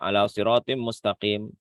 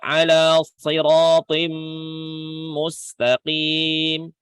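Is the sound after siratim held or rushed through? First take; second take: rushed; held. First: Siratim runs straight into mustaqim without holding. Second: The nasal after siratim is held before continuing. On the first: The speaker calls it wrong. "bablas saja" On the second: The speaker calls it right. "Siratim, ditahan di situ"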